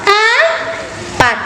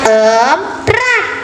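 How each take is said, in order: First: The word is said slowly without an r sound. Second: The word has an extra r sound. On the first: The speaker calls it right. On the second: The speaker calls it wrong. "bukan emprat"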